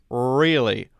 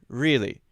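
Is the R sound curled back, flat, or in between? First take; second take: curled back; flat. First: The R is strongly curled and sounds very heavy. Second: The R is flat and sounds weak and unrounded. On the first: "that's too strong" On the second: "mostly flat"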